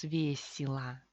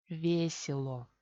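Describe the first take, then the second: First: Весело as VYE-si-la; reduced vowels. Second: Весело slowly as VYE-sye-lo, full final O; official spelling pronunciation. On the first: Teacher showing the result of reduction, reduced pronunciation. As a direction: say весело with E turned to I and final O to A. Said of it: "Al final tenemos весело". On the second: Teacher showing the official reading, spelled-out pronunciation. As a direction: read весело as written, ending on a clear O. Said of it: "Oficialmente se lee como". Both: Shown as a demonstration.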